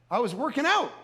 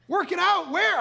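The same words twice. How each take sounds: First: Said in the usual way. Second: High-pitched disbelieving question; incredulous echo. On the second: Retold or imitated. Husband questions wife after the missile scare, incredulous. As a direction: throw the words back, acted disbelief.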